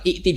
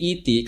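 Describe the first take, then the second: First: A glottal stop follows the first vowel. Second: A long i vowel, with no glottal stop. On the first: This is the underlying form. "Ikti itu hamzah" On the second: This is the form after the change.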